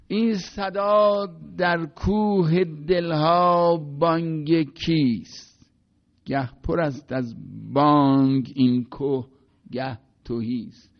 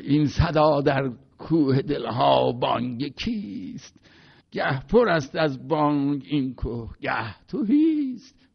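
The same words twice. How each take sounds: First: Slow, drawn-out verse recital, louder; recited Persian poetry, slow and sonorous; poem recitation. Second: Put-on Jafari's Turkish accent. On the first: Shown as a demonstration. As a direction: chant the verse slowly, letting each word ring. Recites Masnavi verse aloud. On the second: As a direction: recite like an elderly Azeri master carried away by the poem. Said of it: "این حالت مرحوم جعفری بود".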